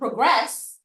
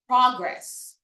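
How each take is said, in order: First: The stress is on the second syllable. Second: The stress is on the first syllable. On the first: It is used as a verb. "the stress is on the second syllable" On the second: It is used as a noun. "that's used as a noun"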